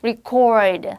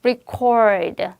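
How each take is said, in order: First: The stress is on the second syllable. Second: The same.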